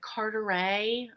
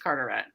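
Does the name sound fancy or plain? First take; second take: fancy; plain. First: The name is said in a fancy-sounding way. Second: The name is said in a plain way. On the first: The speaker calls it wrong. "they always like Carteret. I'm like, we're not that fancy here" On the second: The speaker calls it right. "we're not that fancy here. It's Carteret"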